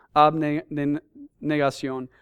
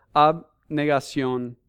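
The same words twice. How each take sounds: First: "Abnegación" stretched very slowly, syllable by syllable; drawn-out emphasis. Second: "abnegación" said slowly, each syllable weighted; emphasized word. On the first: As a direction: drag out "Abnegación" for weight. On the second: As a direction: lean on "abnegación", slow and deliberate. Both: Shown as a demonstration. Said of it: "quiero enfatizar esta palabra".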